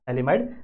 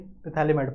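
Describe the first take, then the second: First: The word starts with a TH sound. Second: The word starts with a sounded P. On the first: It is the proper way to say it to others. The speaker calls it right. "Pronunciation इसकी सही क्या है? ... दिस पी is a silent" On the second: It helps remember the spelling. The speaker calls it wrong. "Spelling याद रखने के लिए पिथैलीमाइड पढ़ना है"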